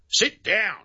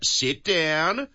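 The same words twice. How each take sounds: First: It is said as a firm command. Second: It is said in a soft, pleading way.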